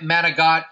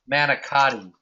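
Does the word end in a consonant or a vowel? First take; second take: consonant; vowel. First: The word ends on a consonant, final vowel dropped. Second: The word ends on a vowel, fully pronounced. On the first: This is how it is said in Italian. "manigot is what it's called in Italian" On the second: This follows the spelling. "people pronounce it manicotti because that's how it's spelled"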